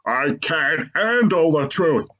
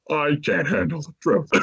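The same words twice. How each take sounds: First: Slow, higher, lightly voiced movie-line delivery; a light hint of a dramatic courtroom line; mock-dramatic line, slowed down; Jack Nicholson. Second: Said in the usual way. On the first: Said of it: "pulls off a Jack Nicholson saying". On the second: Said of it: "Instead of You can't handle".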